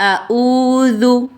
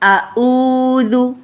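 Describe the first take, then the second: Both takes have the same delivery.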